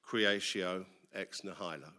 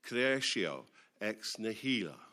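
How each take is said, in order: First: The phrase is pronounced in an English style. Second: The phrase is pronounced in an Italian style. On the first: The speaker calls it wrong. "for about 26 years, I thought this was pronounced" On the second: The speaker calls it right. "Then I began to learn Italian, and I realized that it's nothing of the sort"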